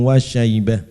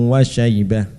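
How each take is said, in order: The two takes are said the same way.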